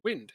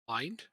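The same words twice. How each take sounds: First: The vowel is short, as in 'win'. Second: The vowel is long, as in 'wine'. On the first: "as in the wind is blowing" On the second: "as in winding someone up"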